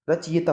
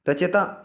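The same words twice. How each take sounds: First: रचयिता with a clear "yi"; correct pronunciation. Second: रचयिता squeezed to "ra-che-ta"; wrong pronunciation. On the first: Teacher corrects the word for students, careful pronunciation. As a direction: say रचयिता as "ra-cha-yi-ta". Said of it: "रचयिता होता है". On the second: Teacher shows students the faulty word, mispronounced. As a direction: say रचयिता without the "yi". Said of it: "रचयिता गलत है भाई". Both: Shown as a demonstration.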